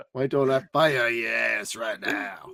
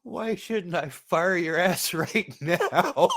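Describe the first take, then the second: First: Mock shout of the chief's line; lightly hammed chief impression; quoting the chief. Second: Slow, laughing mock-boss line; playful imitation of the chief, drawn out; imitating the chief. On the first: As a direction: fire off the boss's threat. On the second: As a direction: quote the angry chief while cracking up. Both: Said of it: "That's gonna be a quote from now on".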